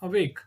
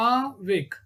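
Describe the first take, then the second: First: Said in the usual way. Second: A - WAKE in two beats; syllable by syllable. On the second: Shown as a demonstration. Teacher showing a two syllable word, "Awake" split apart. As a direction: separate "Awake" after the A. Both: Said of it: "These are all called two syllabic".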